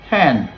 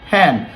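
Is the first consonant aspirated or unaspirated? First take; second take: aspirated; aspirated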